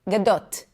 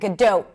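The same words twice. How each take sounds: First: The final T is clearly released. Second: The final T is held with no release. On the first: The speaker calls it right. "That doesn't happen in Hebrew. A T is a T" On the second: The speaker calls it wrong. "in English, it's a held T, which means there is no T there. It's just an abrupt stop of air"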